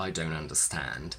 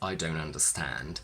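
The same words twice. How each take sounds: First: The t in don't is dropped entirely. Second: The same.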